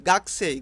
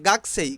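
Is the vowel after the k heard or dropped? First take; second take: dropped; dropped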